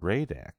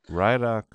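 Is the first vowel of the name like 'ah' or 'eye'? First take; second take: ah; eye. First: The first vowel sounds like 'ah'. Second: The first vowel sounds like 'eye'. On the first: The speaker calls it right. "His name is Radak" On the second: The speaker calls it wrong. "His name is Radak, not Rydok"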